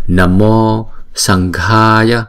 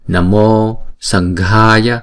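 Both takes have the same delivery.

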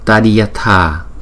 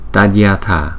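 First: The word is said slowly, syllable by syllable. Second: The word is said quickly, with syllables run together.

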